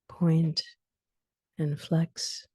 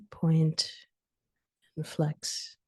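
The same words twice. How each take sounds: The two takes are said the same way.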